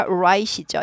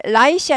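First: "right" with a w-like onset, "u-right"; rounded English R. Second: "right" said with an L, like "light"; mispronounced L for R. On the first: Teacher stressing the important sound, rounded R. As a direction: round into the R of "right" before the vowel. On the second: Teacher showing the mistake to avoid, L sound. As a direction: start "right" with the tongue tip, as "light". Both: Shown as a demonstration. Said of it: "right이 아니라 right이죠".

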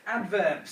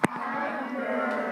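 First: Said in the usual way. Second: Teacher drawing the word out slowly for the class; slow drawn-out word. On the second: Shown as a demonstration. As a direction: stretch adverbs out slowly, high. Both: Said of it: "say it slowly".

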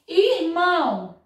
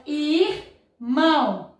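First: Said in the usual way. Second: "irmão" as ir... mão, with a gap; split into syllables. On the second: Shown as a demonstration. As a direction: say "irmão" slowly, parting R from M. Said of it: "o R separou do M".

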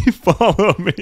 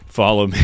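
First: Drawn out, high and loud through laughter; laughing follow me. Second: Said in the usual way. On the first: Real, not acted. Streamer leading chat through the level, laughing high call. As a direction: giggle it slow and high. Laughing sing-song repeat.

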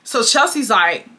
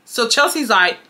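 The two takes are said the same way.

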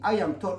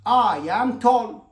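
First: Said in the usual way. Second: I am tall, very slow and louder; slow model sentence. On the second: Shown as a demonstration. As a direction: stretch each word for the class. (نطق بطيء وواضح) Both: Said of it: "طيب".

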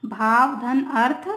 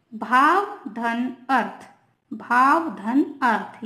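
First: Said in the usual way. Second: Slow, each word of भाव धन अर्थ set apart; slow dictation. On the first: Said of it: "ठीक है ना". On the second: Shown as a demonstration. Teacher slowly dictating भाव धन अर्थ to students. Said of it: "देखिए example के through".

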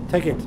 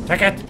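First: Said in the usual way. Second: Insistent repeat. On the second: Shown as a demonstration. Repeating "Take it!" at the game, more insistent. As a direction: push "Take it!" harder the second time.

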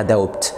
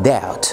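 First: Doubt with the b sounded, "doub-t"; wrong pronunciation. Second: Doubt said as "dout", b silent; correct pronunciation. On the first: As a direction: doubt with a hard b. (doubt غلط بنطق الـ b) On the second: (doubt من غير الـ b) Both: Shown as a demonstration. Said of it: "مفيش حاجة اسمها doubt".

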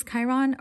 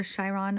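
First: Chiron said with a hard K, KAI-ron; hard K variant. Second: Chiron said with SH, SHY-ron; soft SH variant. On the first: Unsure reader offers one pronunciation, Chiron with hard K. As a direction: start Chiron with a K sound. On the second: Unsure reader offers another pronunciation, Chiron with SH. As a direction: start Chiron with a soft SH sound. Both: Shown as a demonstration. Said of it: "I don't know if it's".

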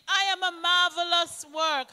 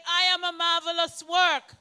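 First: I am a marvelous work, declared with conviction; confident affirmation, stress on I; say it like you mean it. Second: Congregation repeats. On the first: Shown as a demonstration. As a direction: proclaim it as if you mean every word. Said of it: "Say it like you mean it". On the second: Real, not acted.

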